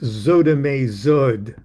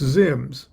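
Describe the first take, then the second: First: A vowel follows every consonant, making several syllables. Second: It is said as one short syllable. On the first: The speaker calls it wrong. "Let's just call it Zodame Zod" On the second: The speaker calls it right. "was meant to be pr- pronounced Zims"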